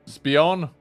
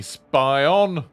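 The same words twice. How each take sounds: First: "Spion" said as SPEE-on; first syllable of "Spion" rhymes with see; alternative pronunciation. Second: "Spion" said as SPY-on; first syllable of "Spion" rhymes with eye; trying a pronunciation. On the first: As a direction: say "Spion" with an ee sound. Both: Shown as a demonstration. Tries two readings of a name.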